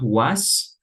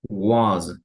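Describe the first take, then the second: First: The word ends with a hissing S sound. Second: The word ends with a buzzing Z sound. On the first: The speaker calls it wrong. "not was" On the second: The speaker calls it right. "more like a Z at the end and not an S"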